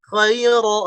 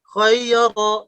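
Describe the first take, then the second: The two takes are said the same way.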